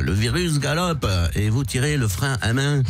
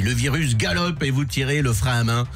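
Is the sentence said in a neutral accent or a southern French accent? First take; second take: southern French; neutral. First: It is said in a southern French accent. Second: It is said in a neutral French accent.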